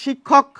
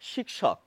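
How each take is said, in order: First: The word is said with Bengali pronunciation. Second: The word is said with Sanskrit pronunciation. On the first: This is how Bengali speakers say it. "আমরা বলি" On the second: This is how it was said in Sanskrit. "সংস্কৃত ভাষায় বলা হয়"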